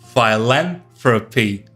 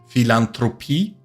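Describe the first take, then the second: First: It is said with an English word melody. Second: It is said with a German word melody. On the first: "in English it's philanthropy" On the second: "in German you say philan, philanthropy"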